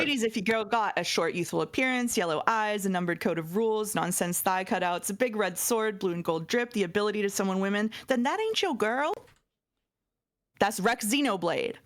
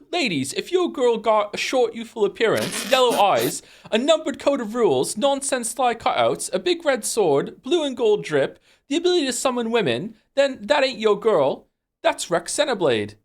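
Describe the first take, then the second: First: It is read in his normal voice. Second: It is read in Rex's voice, British-sounding.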